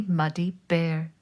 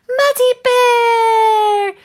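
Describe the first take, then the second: First: Said in the usual way. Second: Very high, loud, drawn-out cry of the name; joyful cry. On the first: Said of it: "plain narration before the cry". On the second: Acted. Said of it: "cried Moose".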